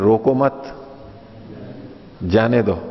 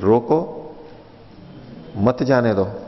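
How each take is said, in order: First: The pause comes right after मत. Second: The pause comes right after रोको.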